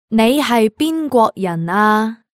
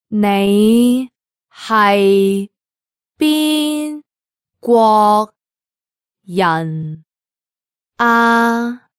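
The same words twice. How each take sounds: First: It is said at natural native speed. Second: It is said slowly and carefully.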